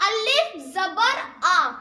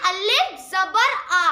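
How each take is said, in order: First: अलिफ ज़बर आ said slowly, आ open and held; अलिफ ज़बर आ recited slowly for learners; slow demo. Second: अलिफ ज़बर आ, slow classroom drill; slow repeat. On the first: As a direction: sound out अलिफ ज़बर आ syllable by syllable. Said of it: "ये clear हो गया". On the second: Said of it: "क्या पढ़ेंगे?". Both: Shown as a demonstration.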